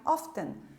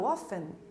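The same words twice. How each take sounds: First: The T sound is pronounced. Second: The T sound is silent. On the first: The speaker calls it wrong. "para vocês não falarem often" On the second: The speaker calls it right. "Novamente não vamos pronunciar a palavra a letra T"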